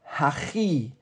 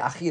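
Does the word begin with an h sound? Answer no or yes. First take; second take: yes; no. First: The word begins with an h sound. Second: The word begins without an h sound. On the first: This is the standard pronunciation. "they don't say hachi" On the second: This is the Jerusalem dialect pronunciation. "They don't pronounce the hey properly"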